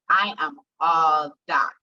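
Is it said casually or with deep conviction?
conviction. It is said with deep, heartfelt conviction.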